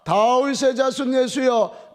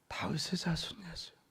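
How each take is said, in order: First: It is said louder still, nearly shouting. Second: It is said very quietly, like a fly.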